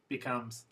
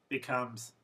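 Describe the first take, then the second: No difference in how they are said.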